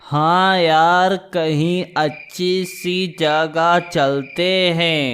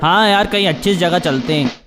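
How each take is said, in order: First: It is said slowly and quietly. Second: It is said quickly, with rushed words.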